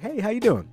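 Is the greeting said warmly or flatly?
warmly. The greeting is said warmly and with interest.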